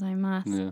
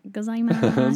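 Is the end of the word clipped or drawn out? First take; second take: clipped; drawn out. First: The end of the word is cut off short. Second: The end of the word is stretched out long. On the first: The speaker calls it right. "like cut it off" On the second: The speaker calls it wrong. "I extend it. I just copy them"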